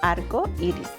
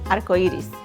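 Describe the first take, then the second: First: It is said slowly. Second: It is said quickly.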